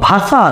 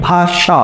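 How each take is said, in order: First: ভাষা slowly as "bhaa-saa", dental s; wrong s sound. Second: ভাষা slowly as "bhaa-shaa"; correct sh sound. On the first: Teacher showing the wrong choice, ভাষা slow with s. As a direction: stretch ভাষা with a hissing s. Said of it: "আপনি কোন স বলতেছেন?". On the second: Teacher showing the right choice, ভাষা slow with sh. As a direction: stretch ভাষা with a clear sh. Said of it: "তালব্য স মতো উচ্চারণ". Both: Shown as a demonstration.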